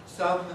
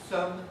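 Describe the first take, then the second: The two takes are said the same way.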